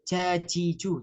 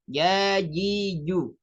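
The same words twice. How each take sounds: First: The consonant is released with an audible breath. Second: The consonant is released with no audible breath. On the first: The speaker calls it wrong. "bukan ja" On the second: The speaker calls it right. "tapi ja ji ju. Jadi benar-benar huruf jim ini tidak mengeluarkan nafas"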